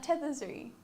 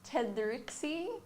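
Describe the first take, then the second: First: The name is said as Tetherzuri. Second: The name is said as Tedrixie. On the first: This is the owner's own pronunciation. "Is how I pronounce it" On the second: This is how other people say it. "we get a lot of different ones"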